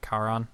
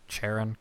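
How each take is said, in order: First: "Charon" begun with a K sound; hard C pronunciation. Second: "Charon" begun with a CH as in "chair"; soft CH pronunciation. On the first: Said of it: "'cause it's a hard C". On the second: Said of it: "how to pronounce that one". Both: Shown as a demonstration.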